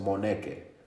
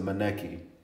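First: The name is said with a Spanish pronunciation. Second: The name is said with an American pronunciation. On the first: "In Spain they say it the best" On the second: "in America they pronounce it Moneke"

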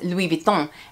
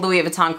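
First: The name is said with a French pronunciation. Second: The name is said with an American accent. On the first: The speaker calls it right. "it's really pronounced Louis Vuitton" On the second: The speaker calls it wrong. "I'm saying it with an American accent"

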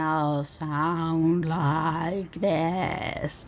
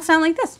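First: The words are spoken slowly. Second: The words are spoken very fast. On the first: "you can slow me down and I'll sound like this" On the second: "you can speed me up to double time and then I'll sound like this"

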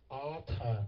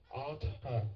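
No difference in how they are said.

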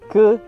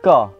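First: The word ends in an e vowel. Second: The word ends in an a vowel. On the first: "Ke jadi ka" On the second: "Ke jadi ka"

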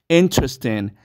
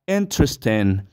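Both takes have the same delivery.

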